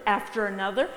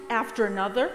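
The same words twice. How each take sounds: The two takes are said the same way.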